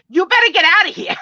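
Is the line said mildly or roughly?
roughly. It is said in a rough, tough way.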